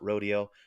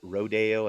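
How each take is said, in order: First: It is said in the everyday way. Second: It is said in an unusual, fancy way. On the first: It names a cowboy event. "and not rodeo?" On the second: It names the ballet. "why the heck do we pronounce it rodeo"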